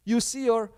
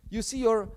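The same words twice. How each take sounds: The two takes are said the same way.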